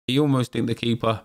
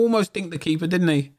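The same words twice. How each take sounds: First: Said in the usual way. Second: Excited. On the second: Real, not acted. Replaying near chip.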